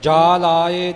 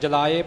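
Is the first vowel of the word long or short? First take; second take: long; short. First: The first vowel is long. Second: The first vowel is short. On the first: The speaker calls it right. "ਜਾਲਾਏ ਜੱਜੇ ਦੇ ਕੰਨੇ ਵੱਲ ਖਿਆਲ ਰੱਖਣਾ" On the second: The speaker calls it wrong. "ਆਮ ਪਾਠੀ ਸਿੰਘ ਜਲਾਏ ਪਾਠ ਕਰ ਜਾਂਦੇ ਨੇ"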